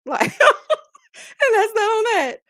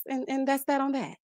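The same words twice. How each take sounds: First: High, loud and slow, laughing through it. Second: Said in the usual way. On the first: Real, not acted. Host closing the story to her viewers, laughing. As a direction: drag it out while cracking up. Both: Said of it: "repeats it laughing".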